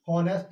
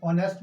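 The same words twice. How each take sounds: First: हॉनेस्ट with a sounded h at the start; wrong pronunciation. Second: ऑनेस्ट with a silent h, starting on the vowel; right pronunciation. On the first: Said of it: "हॉनेस्ट नहीं बोलते हैं". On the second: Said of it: "तो ऑनेस्ट बोलते हैं". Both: Shown as a demonstration.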